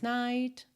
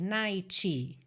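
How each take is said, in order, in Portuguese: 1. O T final é solto claramente, sem vogal. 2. O T final tem uma vogal extra depois. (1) "Ou pode ir aparecendo mais" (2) "que é considerado um erro de pronúncia ... A gente não tem uma vogal depois desse T"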